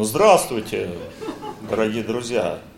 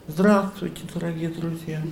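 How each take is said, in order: First: The voice sounds proud and self-satisfied. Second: The voice sounds pitiful and humbled. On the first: The person feels superior and full of himself. "тогда чувство собственного достоинства поднимается вверх" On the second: The person feels humiliated and diminished. "И ты становишься таким жалким человеком, таким униженным"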